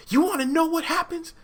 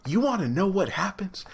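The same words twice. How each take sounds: First: Much higher, sing-song teasing; excited reveal. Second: Breathy secretive hush, leaning in; teasing whisper. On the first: Vlogger hyping viewers before the twist, excited and high. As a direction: build hype, voice jumping up. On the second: Vlogger teasing viewers before the twist, whispered. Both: Acted.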